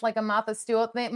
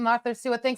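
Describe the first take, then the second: First: "Martha Stewart" with dropped r's, Mahtha Stewat; Boston accent. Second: "Martha Stewart" with clear r's, careful; r-full Martha Stewart. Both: Shown as a demonstration. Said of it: "my Boston accent".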